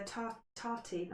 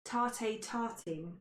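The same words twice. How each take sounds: First: "tar-, tartine" with a halting false start, tartine unsure; stumbling over tartine. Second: "Tarte tartine" said very slowly, each syllable placed with a French try; careful French attempt. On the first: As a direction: start "tar-", break off, then try "tartine" tentatively. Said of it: "I can't say it". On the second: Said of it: "Hence the French accent". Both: Real, not acted.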